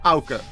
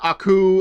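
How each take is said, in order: First: The name begins with an 'ow' sound. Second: The name begins with an 'ah' sound. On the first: The speaker calls it right. "That's how you pronounce my name" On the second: The speaker calls it wrong. "I've heard Aku"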